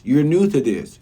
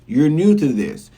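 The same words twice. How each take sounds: First: Said in the usual way. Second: "new" leaned on, said slowly; stress on new. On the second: Shown as a demonstration. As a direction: drag out "new" to drive it home. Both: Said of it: "repeated for emphasis".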